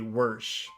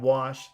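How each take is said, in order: First: The vowel has an inserted R sound. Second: The vowel has no R sound. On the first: "they say wersh" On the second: "instead of saying wash"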